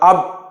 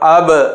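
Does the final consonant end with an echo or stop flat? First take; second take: flat; echo. First: The final b stops flat with no echo. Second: The final b bounces with an echo. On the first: The speaker calls it wrong. "అనకుండా" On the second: The speaker calls it right. "ఈ విధంగా చదవాలి"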